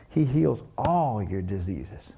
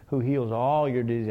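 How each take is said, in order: First: Slow and lower, every word of "He heals all your diseases" weighed; slow emphatic quote. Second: "all" given the weight of the line; stress on all. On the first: Preacher to congregation, dwelling slowly on the verse. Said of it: "man, that one". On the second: Preacher savouring the word "all", stressing it. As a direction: lean on the word "all" in "heals all your disease". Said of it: "I like that all word". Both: Shown as a demonstration.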